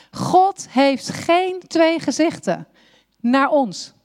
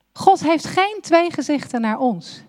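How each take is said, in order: First: Slow, weighty stress on "God", drawn-out line; God heeft geen twee gezichten, with "God" leaned on slowly. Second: "geen" hit hardest, at normal pace; God heeft "geen" twee gezichten, with the weight on "geen"; stress on geen. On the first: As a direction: lean hard on "God" and take it slowly. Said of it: "repeated line, stressed on God". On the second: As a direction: punch the word "geen". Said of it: "repeated line, stressed on geen". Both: Shown as a demonstration.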